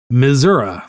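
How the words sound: It is said with a rural Missouri pronunciation. The speaker lives far from a city. "If they are from more of the ur- the rural areas, they're more likely to say"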